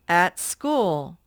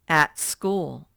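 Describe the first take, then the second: Both takes have the same delivery.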